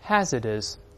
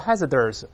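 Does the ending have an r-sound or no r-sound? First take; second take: no r-sound; r-sound. First: The ending is said with no r-sound. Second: The ending is said with a curled-tongue r-sound. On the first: The speaker calls it right. "OUS 里面没有字母R" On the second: The speaker calls it wrong. "不要勾舌头，不要读hazardous，不它不是这么读的"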